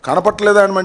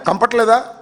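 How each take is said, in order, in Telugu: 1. ఈ పదాన్ని పూర్తి 'kana' అక్షరాలతో అంటారు. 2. 'na' తీసేసి 'kampat' లాగా అంటారు. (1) "కనపట్లేదా అంటే" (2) "కంపట్లేదా అంటున్నాడు"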